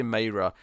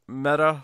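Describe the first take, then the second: First: Myra said MY-ra; Myra, first syllable like "my"; Myra with long i. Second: Mira with a short e, like "mirror". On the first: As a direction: Myra rhyming with fire-a. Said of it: "I switched". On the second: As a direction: say Mira as MEH-ra, drawn out. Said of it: "I read Mira first, and then I said". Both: Shown as a demonstration.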